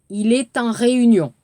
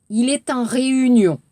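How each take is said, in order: No difference in how they are said.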